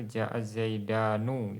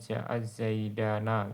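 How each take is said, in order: First: The last word ends in a u sound. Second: The last word ends in an a sound. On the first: Some speakers use this form. "ada yang didomah" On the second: This is a little-known dialect form. "ada juga dialek yang memfathahkan"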